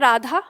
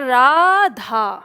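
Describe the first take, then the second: First: The final vowel has normal length. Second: The final vowel is stretched out long. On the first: "जैसे हम बोल रहे हैं" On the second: "खींच के बोला जाएगा"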